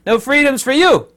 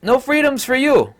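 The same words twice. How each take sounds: First: A high, loud taunting decree; mocking president. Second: High, loud, put-on sneering decree; mocking tyrant voice. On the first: Mocking the New Zealand president denying freedoms, taunting. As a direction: taunt like a gleeful tyrant. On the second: Mocking the president again in a put-on voice, sneering. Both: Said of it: "president of New Zealand saying that flat out".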